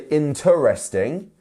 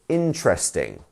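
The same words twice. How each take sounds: First: It is said with four full syllables. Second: It is said with three syllables, middle reduced. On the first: The speaker calls it wrong. "You don't need to say interesting" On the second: The speaker calls it right. "We would just say interesting. So it's just an R in the middle there"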